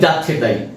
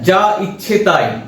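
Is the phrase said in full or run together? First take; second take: run together; full. First: The phrase is run together quickly and shortened. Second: The phrase is said as separate full words.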